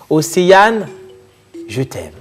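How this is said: It is said with deep, heartfelt feeling. The message really reaches the listener. The speaker calls it right. "ça a impacté parce que le je t'aime est profond"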